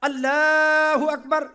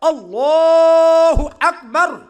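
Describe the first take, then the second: First: The vowel in Allah is kept short. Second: The vowel in Allah is drawn out long. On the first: The speaker calls it wrong. "ऐसे नहीं कहना" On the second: The speaker calls it right. "लफ्ज़ अल्लाह को लंबा भी करना है"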